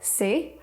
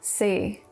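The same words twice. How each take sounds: First: The pitch rises from low to mid. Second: The pitch falls from low to very low. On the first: "Five is low rising" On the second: "Four is low falling tone"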